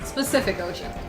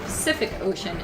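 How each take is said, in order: First: The first word begins with an s sound. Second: The first word begins with a p sound. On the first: The speaker calls it wrong. "and not Specific Ocean. That's not an ocean" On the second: The speaker calls it right. "I need to be able to call it the Pacific Ocean"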